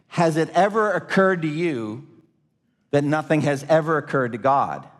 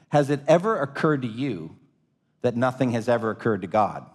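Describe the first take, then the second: First: The sentence is spoken slowly and deliberately. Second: The sentence is spoken at a normal pace.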